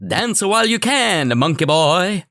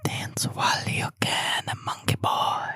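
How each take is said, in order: First: Much higher and louder, slow, with a hammy pseudo-Italian villain voice; Buckaroo Banzai villain. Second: Slow, breathy whisper; whispered quote. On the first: Retold or imitated. Host taunting his co-host with the villain's line, hammed up. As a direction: sneer it like a campy alien villain. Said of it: "That was a Buckaroo Banzai reference". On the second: Pretend. Co-host teasing his friend with the movie line, whispered slowly. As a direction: hush it like a creepy secret.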